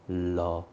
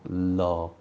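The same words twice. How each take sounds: No difference in how they are said.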